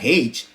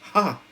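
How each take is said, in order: First: The letter is said as its name. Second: The letter is said as a short sound. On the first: The speaker calls it wrong. "it's not H" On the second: The speaker calls it right. "Tama sila eh"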